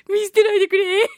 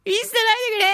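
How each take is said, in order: First: High, loud mock plea of a husband; cling and beg not to be left; clingy pleading husband. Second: A lighter, higher mock plea; mock clingy plea. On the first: Husband clinging to his listener wives, begging not to be dumped. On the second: Clinging husband begging his wives again, half-joking. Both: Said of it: "すがる系でございますからね".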